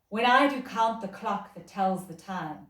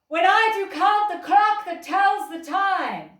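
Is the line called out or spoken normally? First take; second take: spoken normally; called out. First: It is spoken at a normal, projected level. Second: It is called out loudly across a distance.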